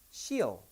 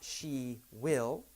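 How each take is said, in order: First: Will is shortened and merged into the pronoun. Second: The word will is pronounced fully and separately. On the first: The speaker calls it right. "she'll. It's a contraction" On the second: The speaker calls it wrong. "Not she will"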